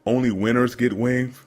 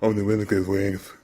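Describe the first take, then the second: First: Said in the usual way. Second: Put-on country accent. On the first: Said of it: "Instead of saying". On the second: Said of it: "in his country accent".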